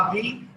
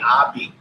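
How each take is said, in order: First: The word ends with a v sound. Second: The word ends with a b sound. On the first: "you can say I V" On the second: "you can also say I B. It doesn't matter"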